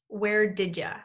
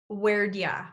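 First: It is said as 'where did ya', with 'you' reduced to 'ya'. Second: It is said as 'where'd ya', with 'did' reduced to 'd' and 'you' to 'ya'. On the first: "reduce did you to sound like did ya" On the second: "the third way we're going to link and reduce where did. Where'd"

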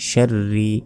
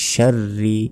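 No difference in how they are said.

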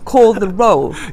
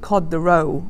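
First: The L in the first word is clearly pronounced. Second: The first word ends in a D-like sound. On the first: The speaker calls it right. "It was meant to say" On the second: The speaker calls it wrong. "it's like cod the roll"

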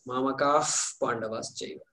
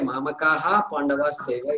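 First: The sound before the p is like f. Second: The sound before the p is an h. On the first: The speaker calls it right. "think of the letter F" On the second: The speaker calls it wrong. "we don't say Mamakaha Pandavas Chaiva. It's not the right way to say it"

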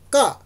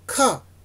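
First: The k is said without a puff of air. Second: The k is said with a puff of air. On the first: "無気音" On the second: "有気音"

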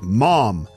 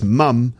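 First: It is said in an American accent. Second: It is said in a British accent. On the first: "like the American mom" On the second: "in British English, it's mum"

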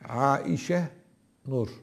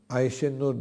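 First: The name is pronounced in its original form. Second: The name is pronounced in its Turkish form. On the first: The speaker calls it right. "Aslında doğrusu bu yani" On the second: The speaker calls it wrong. "Aişe Nur değil. Bazıları Türkçeleri kullanıyor"

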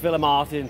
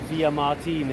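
First: The name is pronounced the English way. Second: The name is pronounced the local Spanish way. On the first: This is the familiar pronunciation the speakers use. "But it's Villamartin to us" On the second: This is the correct local pronunciation. "if you want to say it properly"

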